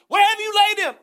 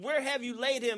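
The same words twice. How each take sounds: First: It is said loudly and forcefully. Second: It is said at normal volume.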